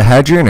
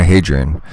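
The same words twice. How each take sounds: First: "Hadrian" with the a of "had"; short-a pronunciation. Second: "Hadrian" with the a of "hay"; long-a pronunciation. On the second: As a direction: say "Hadrian" starting like "hay", questioning. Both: Shown as a demonstration. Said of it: "Is it Hadrian or Hadrian?".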